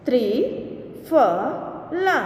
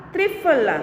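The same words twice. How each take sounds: First: Slow, each sound drawn out, rising at the end; slow drawn-out reading. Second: Said in the usual way. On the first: Shown as a demonstration. Teacher slowly sounding out a word for students, drawn out. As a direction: stretch the word slowly for the class. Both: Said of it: "के उदाहरण हम देखें".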